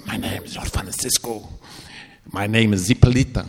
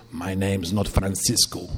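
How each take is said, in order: First: Put-on a dark presence speaking through the boy; horrible demonic voice. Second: Low, slow, menacing otherworldly voice; horrible demonic voice. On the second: Retold or imitated. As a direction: growl it out like something not human. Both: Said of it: "In this horrible voice".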